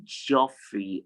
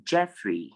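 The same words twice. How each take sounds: First: Geoffrey as JOF-ree; an O sound in Geoffrey; wrong pronunciation. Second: Jeffrey as JEF-ree; short E in Jeffrey; correct pronunciation. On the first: Teacher showing how not to say it, Geoffrey as JOF-ree. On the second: Teacher modelling the name for students, Jeffrey as JEF-ree. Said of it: "it's pronounced". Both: Shown as a demonstration.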